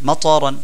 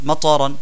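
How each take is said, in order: Both takes have the same delivery.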